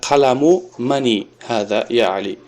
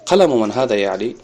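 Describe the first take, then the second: First: Мани with an extra i ending; wrong added kasra. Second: Ман ending on a bare n; no kasra. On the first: Teacher shows what cannot be said, мани with kasra. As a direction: say мани, adding -i to man. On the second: Teacher models the correct question, ман without kasra. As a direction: say ман with no vowel after the n. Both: Shown as a demonstration. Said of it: "касра намегира ман".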